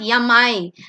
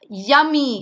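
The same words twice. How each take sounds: First: The word ends with an 'eye' sound. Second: The word ends with an 'ee' sound. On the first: The speaker calls it wrong. "it's not yummy because it has a vowel in it" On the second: The speaker calls it right. "Here it's yummy"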